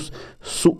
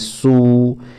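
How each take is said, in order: First: The vowel is cut short. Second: The vowel is held for about a second. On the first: The speaker calls it wrong. "इसको सु नहीं पढ़ना है" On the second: The speaker calls it right. "एक सेकंड तक लंबा पढ़ना है"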